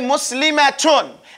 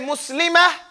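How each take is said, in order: First: The ending is a t sound plus vowels. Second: The ending is a breathy h sound. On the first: The speaker is continuing on to the next word. "if you were continuing, you would say Muslimatun. And you pronounce the ta marbuta like it's a ta" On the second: The speaker is stopping on this word. "if you stop and you say Muslimah ... you say the letter as though it is a ha"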